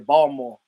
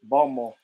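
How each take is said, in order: First: The t sound is left out. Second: The same.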